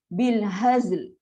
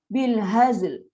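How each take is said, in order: The two takes are said the same way.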